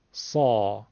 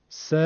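First: سا lower, full from the throat; thick, deep سا with no whistle; heavy sad. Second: س as a short thin "se"; a light front "se", no throat; light plain sin. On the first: (سا پرحجم و درشت، بدون سوت) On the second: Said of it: "اینطور ببینی". (سِ نازک و ساده) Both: Shown as a demonstration.

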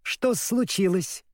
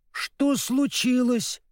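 First: Slow, higher-pitched mocking echo; mocking squirrel. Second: High, slow grieving question; sorrowful. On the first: Squirrel taunting the two friends, mocking. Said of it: "насмешливое чоканье белки". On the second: Scarecrow finding the dog lying senseless, sorrowful. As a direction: draw it out in high-pitched distress. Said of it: "горестно спросил Страшила". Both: A narrator's reading.

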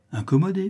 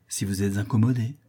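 First: High, startled echo of incommodée; mock-innocent astonished echo; surprised echo. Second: Said in the usual way. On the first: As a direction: toss back incommodée on a much higher pitch in surprise. Wife echoes word, taken aback.

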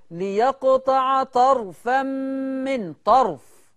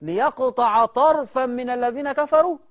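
First: "طرفا" read tarfan, the ra stilled; "طرفا" with a silent ra: tarfan, no vowel after r; deliberately wrong reading. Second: "طرفا" read tarafan, the ra with fatha; "طرفا" with a voiced ra: ta-ra-fan; correct reading. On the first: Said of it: "أنا قريتها غلط دلوقتي، اتعمدت". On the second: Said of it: "الراء مش ساكنة". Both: Shown as a demonstration.

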